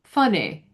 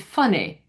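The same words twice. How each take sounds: First: The final vowel is clipped short. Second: The same.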